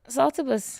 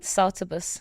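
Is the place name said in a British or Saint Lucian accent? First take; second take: Saint Lucian; British. First: The name is said with a Saint Lucian accent. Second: The name is said with a British accent. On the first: "Say it properly now" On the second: "I'm saying that in a very British way"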